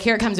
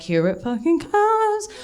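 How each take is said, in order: First: Said in the usual way. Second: High dramatic dread. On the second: Retold or imitated. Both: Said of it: "I was like".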